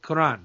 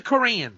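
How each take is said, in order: First: "Quran" with the Arabic vowels, kor-AHN. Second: "Quran" flattened into an American ker-AN; pointedly American "Quran"; English Koran. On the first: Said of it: "I know how to say the word Quran too". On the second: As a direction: anglicize "Quran" on purpose. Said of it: "It's the Quran". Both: Shown as a demonstration.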